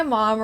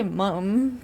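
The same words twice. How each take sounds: First: Said in the usual way. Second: "mum" with a British short u instead of American "mom"; British pronunciation. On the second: Shown as a demonstration. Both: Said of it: "they say mum".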